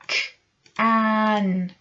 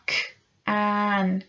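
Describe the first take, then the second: No difference in how they are said.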